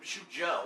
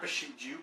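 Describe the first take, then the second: First: The last syllable ends with an 'oh' vowel. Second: The last syllable ends with an 'oo' vowel. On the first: The speaker calls it right. "It's Bishujo" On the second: The speaker calls it wrong. "not Bishuju"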